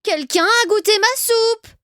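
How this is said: It is said in a medium voice.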